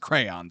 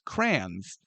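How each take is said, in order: First: The word is said with two full syllables. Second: The word is squeezed into one syllable, like crans. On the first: This is the standard way to say it. The speaker calls it right. "It is crayon" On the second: This is how it is said locally. The speaker calls it wrong. "as we pronounced it growing up in Saint Louis"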